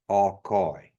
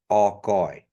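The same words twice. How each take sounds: First: The word begins with a vowel sound. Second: The word begins with a vowel sound.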